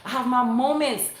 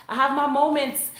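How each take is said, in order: Both takes have the same delivery.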